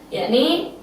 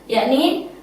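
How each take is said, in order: The two takes are said the same way.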